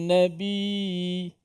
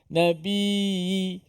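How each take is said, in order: No difference in how they are said.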